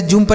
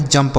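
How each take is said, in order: First: जुम्प with an u sound as in put; misread vowel. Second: जंप with a short uh vowel; correct reading. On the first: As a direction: say जुम्प with a Hindi छोटा उ. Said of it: "इसे ऐसे जुम्प नहीं पढ़ेंगे". (जुम्प में उ की मात्रा वाला उच्चारण) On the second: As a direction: say जंप to rhyme with bump. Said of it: "यहाँ पे जंप होगा". (जंप में उ नहीं, छोटे अ की आवाज़) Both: Shown as a demonstration.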